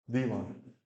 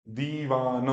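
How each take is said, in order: First: Said in the usual way. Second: "दीवान" drawn out, dee-vaa-na; long vowels. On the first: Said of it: "मोटा मोटा कर रहा हूं". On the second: Shown as a demonstration. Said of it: "दो second का time".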